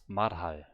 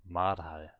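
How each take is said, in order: First: The first syllable ends in an R sound. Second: The first syllable ends in an R sound.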